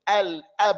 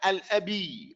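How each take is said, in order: First: The b ends the word with no vowel after. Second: A vowel sound is added after the b. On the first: The speaker calls it right. "We're just going to merely separate between them" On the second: The speaker calls it wrong. "not al abi"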